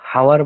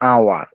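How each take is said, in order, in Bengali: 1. শব্দটি 'h' ধ্বনি দিয়ে শুরু হয়। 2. শব্দটি স্বরধ্বনি দিয়ে শুরু হয়।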